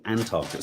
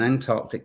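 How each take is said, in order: First: ANTARCTIC without its first C, an-TAR-tik; wrong Antarctic. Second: ANTARCTIC with the C sounded, ant-ARK-tik; careful Antarctic. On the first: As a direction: drop the middle K from Antarctic. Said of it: "isn't Antarctic". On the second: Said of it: "an Antarctic isn't Antarctic". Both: Shown as a demonstration.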